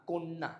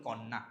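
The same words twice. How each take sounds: First: কন্যা as "kon-na" with a closed o; correct pronunciation. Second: কন্যা as "konna" with an open aw, "kawn-na"; wrong pronunciation. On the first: Teacher correcting students, কন্যা with closed o, "kon-na". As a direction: round the first vowel of কন্যা to o. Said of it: "শুদ্ধ উচ্চারণটা কি". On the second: Teacher showing what we commonly say, কন্যা as "kawn-na". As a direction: open the first vowel of কন্যা to aw. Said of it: "যেমন আমরা বলি". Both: Shown as a demonstration.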